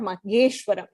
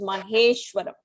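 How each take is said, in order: First: The second consonant is a g sound. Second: The second consonant is an h sound. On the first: The speaker calls it wrong. "It is not mageshwaram" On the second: The speaker calls it right. "it is maheshwaram"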